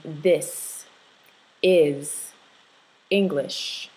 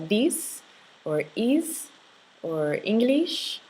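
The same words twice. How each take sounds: First: "this", "is", "English" with a short relaxed ih; softened vowels. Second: "these", "is", "English" with a tight long ee, like "eez" and "Engleesh"; tense vowels. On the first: Teacher showing the difference, softened ih in "this", "is", "English". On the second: Teacher imitating the learner's vowels, tense ee in "these", "is", "English". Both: Shown as a demonstration. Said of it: "you want to soften that sound".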